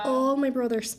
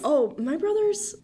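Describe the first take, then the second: First: Irish accent. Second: Repeating brothers in a lilting Irish accent. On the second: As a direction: say brothers slower with a sing-song Irish lilt. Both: Shown as a demonstration. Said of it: "Your brothers?".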